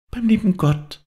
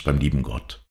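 First: Put-on very high little child's voice; child's echo. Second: Said in the usual way. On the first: A narrator's reading. Child echoes father's words of comfort, high little voice. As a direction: repeat it wonderingly, high as a small child. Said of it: "wiederholte das Kind". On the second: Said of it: "sagte der Deichgraf".

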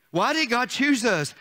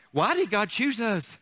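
The two takes are said the same way.

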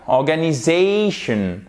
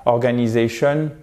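First: ORGANISATION in English, syllable ZA stretched and stressed; accent tonique appuyé. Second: ORGANISATION flat, every syllable equal, French-style; no stressed syllable in ORGANISATION, evenly timed; plat, sans accent. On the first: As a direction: lean hard on the ZA of ORGANISATION. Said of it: "il faut vraiment appuyer là-dessus". (« organisation » à l'anglaise, accent appuyé sur « za ») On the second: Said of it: "quelque chose de plat comme en français". (« organisation » plat, comme en français) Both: Shown as a demonstration.

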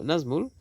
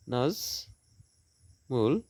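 First: Said in the usual way. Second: "Nazmul" very slowly as নাজ, pause, মুল; two stretched beats in "Nazmul"; syllable by syllable. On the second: Shown as a demonstration. Teacher dividing a name for students, "Nazmul" slowly split in two. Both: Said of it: "দুটি syllable".

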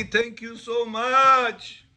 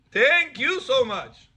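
First: Slow, drawn-out grateful thank you; a man gushing thanks at his rabbi. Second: Slow, higher, drawn-out thank you; grateful thanks. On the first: Student thanking the rabbi, slow drawn-out gratitude. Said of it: "He blessed me". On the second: Man blessing the rabbi for the find, slow higher gratitude. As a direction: lay the gratitude on thick. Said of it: "says the Pele Yoetz". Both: Retold or imitated.

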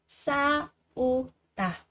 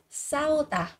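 First: 싸우다 slowly split as 싸-우-다; syllable by syllable. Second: Said in the usual way. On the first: Shown as a demonstration. Teacher drilling learners on 싸우다, slow and separated.

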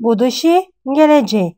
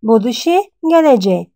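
Both takes have the same delivery.

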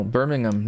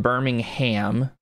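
First: Birmingham with a swallowed, unstressed "-um" ending; correct pronunciation. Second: Birmingham drawn out slowly with a full "HAM" ending; slow Birmingham, last syllable like the meat, ham; mock mispronunciation. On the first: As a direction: say Birmingham the British way, ending in a weak "um". Correcting how the name is said. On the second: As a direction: say Birmingham wrongly, landing on a long "ham". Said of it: "not Birmingham". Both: Shown as a demonstration.

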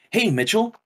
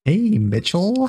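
First: Game character greeting. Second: Mock game character. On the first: Retold or imitated. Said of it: "He's like". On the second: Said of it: "echoes the line".

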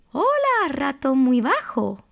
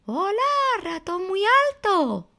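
First: High sing-song mouse greeting; ratón muy alto. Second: Ratón muy bajo. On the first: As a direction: call out hello in a high little story voice. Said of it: "Ratón muy alto decía". (saludo agudo de ratón de cuento) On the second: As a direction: greet a friend in a high story-mouse voice. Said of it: "Y ratón muy bajo decía". (saludo agudo y cantarín de ratoncito) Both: Acted.

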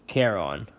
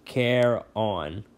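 First: Said in the usual way. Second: "Care on" split into two separate beats; syllable by syllable. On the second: A narrator's reading. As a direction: sound out "Care on" as two distinct words. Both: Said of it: "Say it with me".

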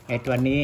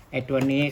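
The two takes are said the same way.

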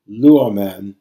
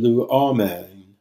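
First: Luomen with the first syllable punched loud; stress on first syllable. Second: Luomen drawn out slowly, accent on the middle o; stress on second-last syllable. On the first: Teacher showing students three verb forms, luomen stressed on its first syllable. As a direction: hit the start of luomen, then ease off. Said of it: "you see that in that third form". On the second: Teacher showing the long eta's pull, luomen slowly stressed on the middle o. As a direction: move the stress in luomen one step forward, slowly. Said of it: "it pulls the acute accent one step forward".

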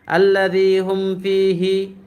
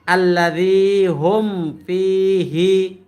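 First: আল্লাযী হুম ফীহি recited a bit slowly without full care; students' hurried reading. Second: Sung, আল্লাযী হুম ফীহি slow and drawn with clear letters; sung, recite it slowly and properly; sung, teacher's correct recitation. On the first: Retold or imitated. Teacher imitates students' careless recitation. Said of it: "আপনারা বলেন কি". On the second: Shown as a demonstration. Sung, teacher shows his own careful recitation. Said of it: "আর আমি বলি কি".

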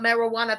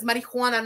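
First: "marijuana" as mero-WA-na, without the h; "marijuana" slurred into merro-wanna; mispronunciation. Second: "Marijuana" as mari-HWA-na, with an h-w glide; "Marijuana" said mari-hwana; pronunciation contrast. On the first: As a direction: say "marijuana" with an o before a plain w. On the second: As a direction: say "Marijuana" with a hw sound in the third syllable. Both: Shown as a demonstration. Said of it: "not marijuana".

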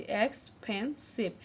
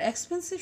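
First: expensive slowly split as x, পেন, সিভ; three separate beats in expensive; syllable by syllable. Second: Said in the usual way. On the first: Shown as a demonstration. (Expensive, তিন ভাগে ভেঙে ধীরে) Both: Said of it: "তিনটি কিন্তু syllable পাচ্ছি".

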